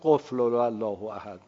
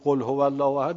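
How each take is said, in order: First: The words are slurred together into 'qufl allah'. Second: Each word is pronounced clearly and separately. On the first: The speaker calls it wrong. "می قفل الله احد مثلا اینجوری میگه" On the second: The speaker calls it right. "هرچی میگه بگو قل هو الله احد"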